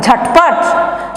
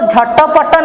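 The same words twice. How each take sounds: First: Both ट sounds are said without following vowels. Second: Short vowels are sounded after both ट sounds. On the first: The speaker calls it right. "दूसरा और चौथे में हलंत का व्यवहार करते हैं" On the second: The speaker calls it wrong. "इसको झटपट नहीं पढ़ोगे आप लोग"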